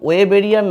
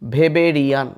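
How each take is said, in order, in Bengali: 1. শব্দটি W ধ্বনি দিয়ে শুরু হয়। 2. শব্দটি V ধ্বনি দিয়ে শুরু হয়। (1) "ওয়েবেরিয়ান না বলে" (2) "জার্মান ভাষায় এই ডাব্লিউটার উচ্চারণ হয় ভ"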